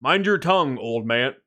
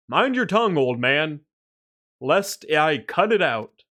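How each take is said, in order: First: Said in the usual way. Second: Stern guard voice. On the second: Acted. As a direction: threaten him like a captain. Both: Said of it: "retake of the same line".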